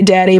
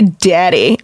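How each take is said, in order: First: The pitch does not rise on the second syllable. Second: The pitch rises on the second syllable. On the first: It is an ordinary way to address a father. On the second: It carries sexual overtones.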